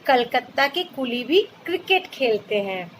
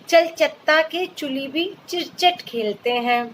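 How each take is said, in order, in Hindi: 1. C वाले शब्द k की आवाज़ से बोले जाते हैं। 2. C वाले शब्द ch की आवाज़ से बोले जाते हैं। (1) "इसे ऐसे कहेंगे" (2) "यहाँ सी को च नहीं क बोलेंगे"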